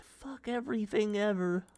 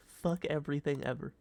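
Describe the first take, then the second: First: High frustrated outcry. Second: Said in the usual way. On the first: Acted. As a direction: wail it out at the game. Repeated curse, first take.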